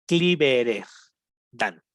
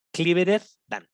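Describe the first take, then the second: First: Slow split model. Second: Said in the usual way. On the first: Shown as a demonstration. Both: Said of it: "Hasta se ve como raro".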